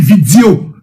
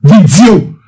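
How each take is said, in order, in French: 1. Le mot est prononcé de manière déformée, moqueuse. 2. Le mot est prononcé de manière déformée, moqueuse.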